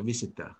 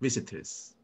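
First: The word ends without a final s sound. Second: The word ends with a clear final s sound. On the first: The speaker calls it wrong. "we prefer to say like a visitor" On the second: The speaker calls it right. "In English, it sounds like a visitors, not visitor"

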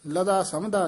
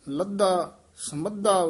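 First: The middle consonants are single and short. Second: The middle consonants are doubled and held long. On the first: The speaker calls it wrong. "ਲਦਾ ਸਮਦਾ ਨਹੀਂ ਕਹਿਣਾ" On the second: The speaker calls it right. "ਇਸੇ ਤਰ੍ਹਾਂ ਹੀ ਲੱਧਾ ਸਮੱਧਾ ਉਚਾਰਨ ਕਰਨਾ"

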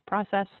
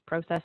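First: The word is said with a non-Canadian pronunciation. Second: The word is said with a Canadian pronunciation. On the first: "not process" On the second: "I will probably use Canadian pronunciations on things. Yes, that's process"

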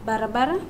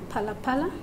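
First: The word begins with a voiced b sound. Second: The word begins with a voiceless p sound. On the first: "ba to pa" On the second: "ba to pa"

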